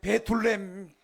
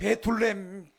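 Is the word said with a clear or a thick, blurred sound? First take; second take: thick; thick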